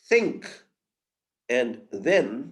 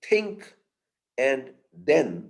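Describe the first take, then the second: First: The th sounds are soft dental fricatives. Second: The th sounds are hard dental stops. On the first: "instead of" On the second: "we say"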